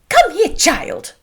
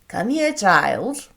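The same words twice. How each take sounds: First: It is voiced as a character other than the father. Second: It is voiced as the father, Mr Bennet.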